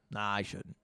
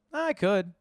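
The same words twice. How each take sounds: First: Quiet. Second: Perked up. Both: Real, not acted. Debating aloud whether to leak it.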